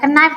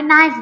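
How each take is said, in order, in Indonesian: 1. Kata ini diawali dengan bunyi K yang dilafalkan. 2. Kata ini diawali dengan bunyi N, K-nya diam. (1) "tidak ke knife" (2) "tapi knife gitu ucapannya"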